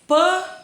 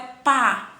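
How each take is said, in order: First: The vowel is said with a closed sound. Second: The vowel is said with an open sound. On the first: The speaker calls it wrong. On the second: The speaker calls it right.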